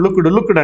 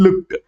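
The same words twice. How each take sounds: First: లుక్డ్ said as two syllables, luk-ud, with an extra vowel; common wrong way. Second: లుక్డ్ as one syllable, lukt, ending in a crisp t; correct pronunciation. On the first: Teacher showing students the common mistake, లుక్డ్ as lukud. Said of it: "మనందరం లుక్డ్, లుక్డ్ అంటాం". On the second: Teacher giving students the right form, లుక్డ్ as lukt. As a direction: clip లుక్డ్ to a single beat ending in t. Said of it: "దాన్ని అనాల్సింది ఏంటంటే లుక్డ్". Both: Shown as a demonstration.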